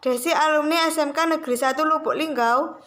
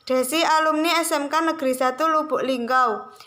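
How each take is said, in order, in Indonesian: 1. Nada naik di akhir. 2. Nada turun di akhir. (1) "kalimat pertanyaan yang diucapkan dengan intonasi naik" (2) "kalimat pernyataan yang diucapkan dengan intonasi menurun"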